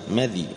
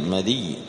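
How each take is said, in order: First: The dh has no vowel; the y is short. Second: The dh takes an i vowel; the y is doubled. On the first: "بفتح الميم وسكون الذال" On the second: "بفتح الميم وكسر الذال مع تشديد الياء"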